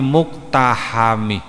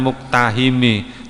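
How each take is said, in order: First: The second-to-last vowel is an 'a' sound. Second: The second-to-last vowel is an 'i' sound. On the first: The speaker calls it right. "tapi muktahami. Pakai fathah bukan kasroh" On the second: The speaker calls it wrong. "bukan muktahimi"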